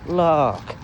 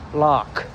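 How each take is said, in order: First: It starts high and trails off low. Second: It stays loud and full throughout. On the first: The speaker calls it wrong. "start high and go low" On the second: The speaker calls it right. "louder, I guess. But but like throughout the whole word"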